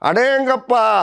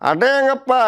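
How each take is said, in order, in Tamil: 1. "அடேங்கப்பா" நீட்டி இழுத்துச் சொல்லப்படுகிறது. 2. "அடேங்கப்பா" சுருக்கமாக, விரைவாகச் சொல்லப்படுகிறது. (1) "அதே கொஞ்சம் இழுத்தோம்னா ஜனரல் சார்" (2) "அவர் ஸ்டைல் இருக்கும்"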